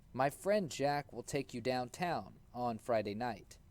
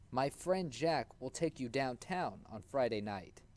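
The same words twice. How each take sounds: The two takes are said the same way.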